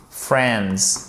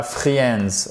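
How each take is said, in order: First: Friends said as "frends", i left silent; silent letter i. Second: Friends mispronounced as "free-ends"; wrongly sounded i. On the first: Teacher modelling the word for learners, friends with a silent i. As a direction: say friends with one short e vowel. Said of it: "Vous ne prononcez pas cette lettre". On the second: Teacher showing learners the mistake to avoid, friends with the i wrongly sounded. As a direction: sound the i in friends, making "fri-ens". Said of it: "pas friends". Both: Shown as a demonstration.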